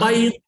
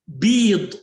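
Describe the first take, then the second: First: The vowel is an ay diphthong. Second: The vowel is a long ee sound. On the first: The speaker calls it wrong. "not bite" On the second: The speaker calls it right. "bead with kasra"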